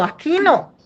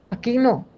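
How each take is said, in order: First: "aquí no" jumps high and firm; firm stop. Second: Said in the usual way. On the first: Retold or imitated. Mother stopping daughter Ana Lu, sharply high "aquí no". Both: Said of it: "así es que yo paro a Ana Lu".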